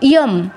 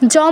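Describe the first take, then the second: First: The word begins with a y sound. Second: The word begins with a j sound. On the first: The speaker calls it right. "এটা কিন্তু ইয়ম" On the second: The speaker calls it wrong. "জম বলা যাবে না"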